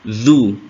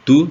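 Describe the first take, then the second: First: The syllable begins with the tongue between teeth. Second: The syllable begins with a hard d sound. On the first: The speaker calls it right. "tapi zu. Berarti kan lidahnya agak keluar" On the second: The speaker calls it wrong.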